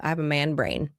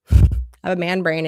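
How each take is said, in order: First: Said in the usual way. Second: Says it again through a laugh, louder; laughing at her own line; amused laughing repeat. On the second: Real, not acted.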